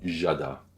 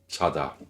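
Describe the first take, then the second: First: It starts with a full French-style J sound. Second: It starts with a light J without breath. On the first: The speaker calls it wrong. "de ne pas faire jada, qui sont très français" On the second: The speaker calls it right. "se prononce comme un J léger sans souffle"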